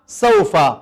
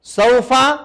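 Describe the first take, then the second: First: sofa lower, with a settled falling tune; falling answer. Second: sofa drawn out with a rising tune; rising call. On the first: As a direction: say sofa firmly, closing down. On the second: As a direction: say sofa like a question to the class. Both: Shown as a demonstration. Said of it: "یہاں سے اور وہاں تک".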